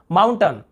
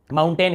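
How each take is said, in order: First: माउंटेन ending in a short "tan"; loud model माउंटेन with reduced last vowel. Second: माउंटेन ending in a long "tain"; full "ay" vowel at the end of माउंटेन; alternative pronunciation. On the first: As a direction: say माउंटेन as "MOUN-tun", first part strong. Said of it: "दोनों उच्चारण में क्या है". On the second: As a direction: say माउंटेन as "moun-TAYN". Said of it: "इसे भी बोल देते हैं". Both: Shown as a demonstration.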